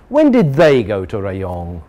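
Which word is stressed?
they. The stress falls on the word they. The question is about a different group of people. "Now we know about a new group"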